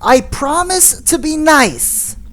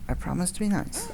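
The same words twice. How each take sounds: First: It is said loudly. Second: It is said quietly.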